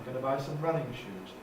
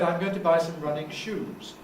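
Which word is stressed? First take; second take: running; shoes. First: The main stress falls on the word running. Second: The main stress falls on the word shoes. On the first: The shoes are made for running. The speaker calls it right. "This is a compound noun" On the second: The shoes themselves are running. The speaker calls it wrong. "it sounds very strange. It's as if the shoes are running"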